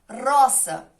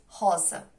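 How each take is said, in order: First: The word is said with a Spanish r sound. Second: The word is said with a Portuguese r sound. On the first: "um exemplo de uma palavra em espanhol" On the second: "Em português"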